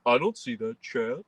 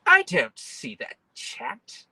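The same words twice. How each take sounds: First: Said in the usual way. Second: High, slow whiny voice; high mock whine. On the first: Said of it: "people on Twitch to be like". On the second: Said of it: "people on YouTube to be like".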